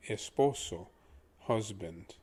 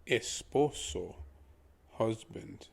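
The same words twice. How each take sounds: The two takes are said the same way.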